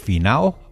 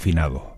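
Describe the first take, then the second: First: The word is said without the d sound. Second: The word is said with the d sound. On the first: The speaker calls it wrong. "Si le quitamos la D, está mal dicho" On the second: The speaker calls it right. "Con D"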